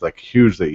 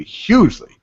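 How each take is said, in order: First: Said in the usual way. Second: Hugely pushed high and loud; stress on hugely. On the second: Retold or imitated. Repeating the cop's hugely with rising emphasis. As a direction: lean hard on hugely, high.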